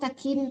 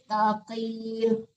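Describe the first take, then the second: First: The first consonant is a light, thin k. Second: The first consonant is a heavy, deep q. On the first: The speaker calls it wrong. "Jangan takin" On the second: The speaker calls it right. "tapi taqin"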